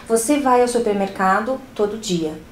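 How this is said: It is said as a statement, falling at the end.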